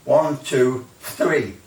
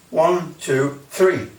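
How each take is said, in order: Both takes have the same delivery.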